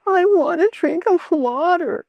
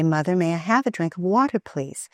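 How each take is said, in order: First: High, nasal whining plea; whiny child. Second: Quick, polite, pleasant request. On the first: Mother imitating her child whining for water. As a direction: whine it like a spoiled child. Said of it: "if the child comes up to you and says". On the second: Mother modelling the polite way to ask for water. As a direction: ask nicely, sweetly. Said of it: "with a pleasant tone". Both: Shown as a demonstration.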